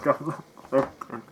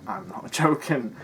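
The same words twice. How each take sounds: First: Said in the usual way. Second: Slow, chuckling denial; amused protest; laughing through it. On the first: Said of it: "That's the funny thing". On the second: Real, not acted. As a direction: laugh mid-line while insisting. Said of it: "I can't tell whether he's joking".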